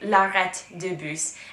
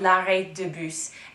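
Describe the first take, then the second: First: The first word sounds like arête, meaning fishbone. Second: The first word sounds like arrêt, meaning stop. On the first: It names a fishbone. The speaker calls it wrong. "I was pronouncing it at that time" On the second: It names the bus stop. The speaker calls it right. "the bus stop in French is called"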